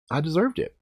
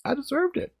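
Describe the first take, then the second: First: Said in the usual way. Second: "deserved" pushed much higher and softer, a wincing rise; painful admission. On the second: Real, not acted. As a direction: repeat "deserved" high and pained, quieter.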